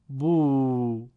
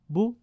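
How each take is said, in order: First: The vowel is long, two beats. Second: The vowel is short, one beat. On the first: "یه بار همون حروف رو با واو مدی به صورت کشیده" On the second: "یک بار الفبا و حروف رو با ضمه و کوتاه تلفظ بکنید"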